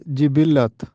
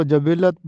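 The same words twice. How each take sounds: First: جبلت said jibillat, 'i' first; درست تلفظ. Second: جبلت said jabillat, 'a' first; رائج غلط تلفظ. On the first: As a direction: say جبلت as ji-BIL-lat. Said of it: "تلفظ ہے جبلت". (جبلت جیم کے نیچے زیر، جِبِلّت) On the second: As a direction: say جبلت as ja-BIL-lat. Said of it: "اکثر لوگ اس کو جبلت بولتے ہیں". (جبلت جیم پر زبر، جَبِلّت) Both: Shown as a demonstration.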